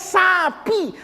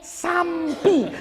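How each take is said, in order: First: It is said without an m before the p. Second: It is said with an m before the p. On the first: "Udah jelas tulisannya sapi" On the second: "masih dikasih M"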